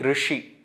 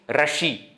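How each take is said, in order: First: The r has a vowel between r and ri. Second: The r is followed by an a vowel. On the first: The speaker calls it right. "I am saying Rishi" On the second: The speaker calls it wrong. "I am not saying Rashi"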